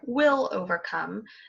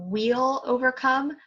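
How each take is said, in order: First: The first word sounds like will. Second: The first word sounds like wheel. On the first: "like willpower" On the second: "you do say more like a wagon wheel"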